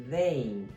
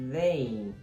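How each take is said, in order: No difference in how they are said.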